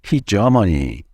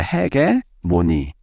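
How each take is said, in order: First: It is said English-style, with a soft 'j' sound. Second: It is said Korean-style, with a hard 'ge' sound. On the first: The speaker calls it right. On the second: The speaker calls it wrong.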